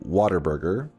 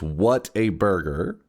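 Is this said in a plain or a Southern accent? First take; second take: Southern; plain. First: The words run together in a Southern accent. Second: Each word is said separately, without a Southern accent. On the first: "true Southerners pronounce it Whataburger" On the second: "It's what a burger"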